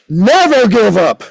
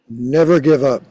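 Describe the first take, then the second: First: It is said at a higher, louder level. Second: It is said at a lower, quieter level.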